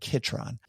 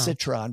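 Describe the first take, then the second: First: The word begins with a K sound. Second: The word begins with an S sound. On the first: The speaker calls it right. "but Kitron" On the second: The speaker calls it wrong. "Not citron"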